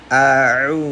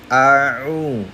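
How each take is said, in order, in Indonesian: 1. Vokal pertama ditekan dari tengah tenggorokan. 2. Vokal pertama ditekan dari tengah tenggorokan.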